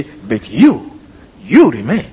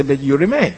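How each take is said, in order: First: "you" stressed, a pause, then "you" again; emphatic doubled YOU. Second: Said in the usual way. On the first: Shown as a demonstration. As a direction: set off the first "you" with a break. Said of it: "if you are true to the Greek". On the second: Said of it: "You just say".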